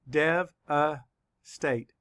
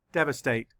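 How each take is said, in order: First: Very slow, Dev-a-state with a clear break between parts; syllable by syllable. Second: Said in the usual way. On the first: Shown as a demonstration. Teacher counting syllables for students, slow and split. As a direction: stretch out Dev-a-state beat by beat. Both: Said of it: "Let's count the syllables".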